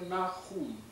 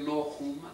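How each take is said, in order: First: The first vowel is an 'a' sound. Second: The first vowel is an 'o' sound. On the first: The speaker calls it right. "אתה אומר נחום" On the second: The speaker calls it wrong. "אתה לא אומר נוחום"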